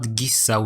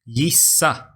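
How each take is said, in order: First: The word begins with a hard g sound. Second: The word begins with a soft j sound. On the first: The speaker calls it wrong. "it's not gissa with a hard g" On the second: The speaker calls it right. "it is a soft because of the soft vowels. So you read it as gissa"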